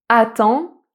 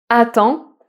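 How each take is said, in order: Both takes have the same delivery.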